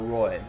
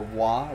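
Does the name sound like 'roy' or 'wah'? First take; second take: roy; wah. First: The name rhymes with 'boy'. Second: The name sounds like 'wah'. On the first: The speaker calls it right. "Maybe he pronounces it Roy" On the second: The speaker calls it wrong. "like Patrick"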